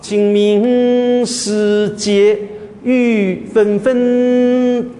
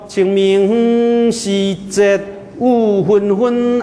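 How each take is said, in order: First: The line is read in Mandarin pronunciation. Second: The line is read in Min Nan pronunciation. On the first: "干脆用我的普通话" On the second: "我这边闽南人说"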